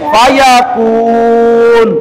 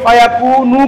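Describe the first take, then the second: First: The word ends on n with a lengthened vowel. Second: The word ends with a short final vowel.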